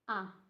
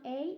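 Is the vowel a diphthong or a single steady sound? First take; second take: single sound; diphthong. First: The vowel stays one steady sound. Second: The vowel glides between two sounds. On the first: The speaker calls it right. "it's a. It's only and always a" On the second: The speaker calls it wrong. "It's not a"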